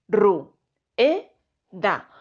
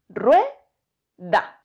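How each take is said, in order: First: The vowels u and e are separated by breaks. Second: The vowels u and e form one syllable. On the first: The speaker calls it wrong. "yo no la dividiría diciendo" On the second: The speaker calls it right. "Yo las pronuncio en un solo golpe de voz"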